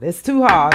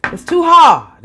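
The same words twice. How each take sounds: First: Said in the usual way. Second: Louder and higher on too hard; emotional outburst; emphatic. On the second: Real, not acted. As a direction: push out hard with feeling.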